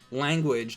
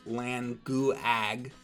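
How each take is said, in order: First: The u is a quick w glide. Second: The u is a separate oo vowel. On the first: The speaker calls it right. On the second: The speaker calls it wrong.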